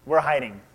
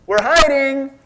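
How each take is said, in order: First: Said in the usual way. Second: Put-on high, loud sing-song kid voice; childish hide-and-seek call; childlike answer. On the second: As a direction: say "We're hiding." like a naive child. Adam and Eve mimicked like kids.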